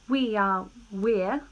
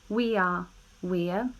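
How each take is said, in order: The two takes are said the same way.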